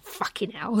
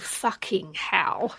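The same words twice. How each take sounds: First: Some sounds are dropped in a relaxed way. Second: Every sound is carefully and fully enunciated. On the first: The speaker calls it right. "our fucking hell" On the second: The speaker calls it wrong. "people who swear who then enunciate all the sounds"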